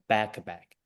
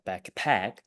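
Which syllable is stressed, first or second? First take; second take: first; second. First: The stress is on the first syllable. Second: The stress is on the second syllable. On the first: The speaker calls it right. "Yes, like backpack" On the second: The speaker calls it wrong. "the word stressed is the first syllable, so it's not uh, backpack"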